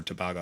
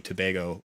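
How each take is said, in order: First: "Tobago" said tuh-BAH-go; second pronunciation variant. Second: "Tobago" said too-BAY-go; first pronunciation variant. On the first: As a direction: say "Tobago" with an open AH in the stressed middle. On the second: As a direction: say "Tobago" with a long AY in the stressed middle. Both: Shown as a demonstration. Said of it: "saying Tobago or Tobago".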